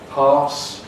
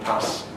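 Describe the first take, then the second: First: It has a long, broad southern vowel. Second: It has a short, flat northern vowel.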